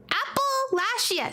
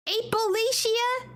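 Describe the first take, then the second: First: Apple Lashia said slow and higher, APPLE then LASHIA; Apple Lashia stressed on apple; split pronunciation. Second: Appalachia said higher with a questioning rise, eh-puh-LAY-shia; plain pronunciation. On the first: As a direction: say it as two words, apple plus lashia. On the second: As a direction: ask it in the usual way. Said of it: "No, Apple". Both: Shown as a demonstration.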